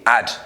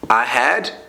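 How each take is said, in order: First: The words are shortened into one syllable. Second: Both words are said in full. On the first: "when we contract it, it's the same thing" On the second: "If you say I had to"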